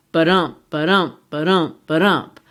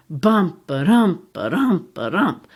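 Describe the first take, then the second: First: Ba-DUMP with the weight on dump; iambic heartbeat rhythm. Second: BUMP first, then ba-dump; reversed heartbeat rhythm. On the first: Teacher showing iambic rhythm, stressing the second beat. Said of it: "like the human heart". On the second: Teacher showing the witches' rhythm, stress on the first beat. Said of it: "They speak in trochaic tetrameter". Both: Shown as a demonstration.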